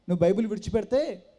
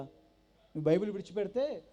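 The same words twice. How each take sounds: First: Louder, pressing repeat of the condition; loud insistence. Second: Said in the usual way. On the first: Retold or imitated. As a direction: hammer the ultimatum home. Brother-in-law repeats ultimatum louder. (బావ గట్టిగా నొక్కి చెప్పే షరతు)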